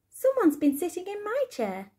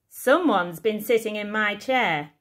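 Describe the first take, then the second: First: It is said in a middle-sized voice. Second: It is said in a big, booming voice.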